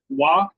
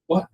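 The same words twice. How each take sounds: First: It is said at normal volume. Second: It is said quietly.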